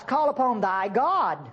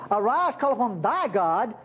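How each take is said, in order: First: Said in the usual way. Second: "thy" leaned on and drawn out; slow the phrase and mark "thy"; stress on THY. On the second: Shown as a demonstration. Preacher marks "thy" for the congregation, emphatic stress on "thy". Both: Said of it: "I want to make an emphasis".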